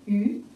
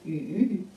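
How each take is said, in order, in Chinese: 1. 音高从中音升到高音。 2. 音高先降到低处，然后上升。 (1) "二声鱼" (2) "三声鱼"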